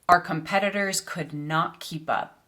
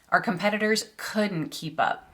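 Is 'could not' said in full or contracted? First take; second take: full; contracted. First: Could not is said as two full words. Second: Could not is contracted into one word. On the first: The speaker calls it wrong. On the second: The speaker calls it right.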